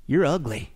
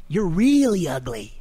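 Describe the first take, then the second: First: Low, deadpan put-down; parrot's insult. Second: Slow put-down, stretching "really"; parrot's insult. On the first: Parrot insults the passing lady, low deadpan. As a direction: drop low for the parrot's punchline. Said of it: "the parrot, though, he pipes up". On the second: Parrot insults the lady again, slow and drawn out. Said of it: "and the parrot, he sees her". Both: Acted.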